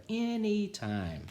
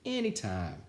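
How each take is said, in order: First: Much higher, very slow, sly; knowing repeat. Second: Said in the usual way. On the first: A narrator's reading. Barbara answers her sister, high slow sly repeat. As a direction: savour the secret.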